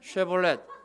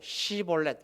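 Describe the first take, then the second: First: The word begins with an 'sh' sound. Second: The word begins with an 's' sound. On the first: The speaker is not an Ephraimite. The speaker calls it right. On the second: The speaker is an Ephraimite. The speaker calls it wrong.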